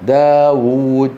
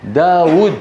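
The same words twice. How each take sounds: First: Slow داوود with a long held uu: daa-wuuud; two waws. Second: داود with a short final u: daa-wud; as written. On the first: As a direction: stretch the second waw of داوود. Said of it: "وبعدها واو ساكنة". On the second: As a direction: cut the last vowel of داود short. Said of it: "فعلى الكتابة مكتوب داود". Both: Shown as a demonstration.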